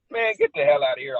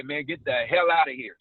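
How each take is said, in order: First: "get" hit hard, louder opening; forceful dismissal. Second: "hell" stretched and stressed, then falling; disbelieving reaction. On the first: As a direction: punch "get" as a real order to leave. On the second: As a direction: lean on "hell" as casual disbelief. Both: Shown as a demonstration. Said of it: "Same words, different meaning".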